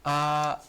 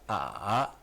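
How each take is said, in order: First: The pitch stays high and level. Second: The pitch dips low, then rises. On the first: "yang pertama" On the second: "yang ketiga"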